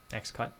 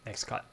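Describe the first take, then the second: No difference in how they are said.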